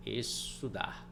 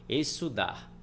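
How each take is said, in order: First: Slow, softer "Estudar" split after the first syllable; "Estudar", drawn out as Es... tudar; syllable break. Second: Said in the usual way. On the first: Shown as a demonstration. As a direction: say "Estudar" slowly in separated syllables. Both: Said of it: "Olha como é que eles vão se separando".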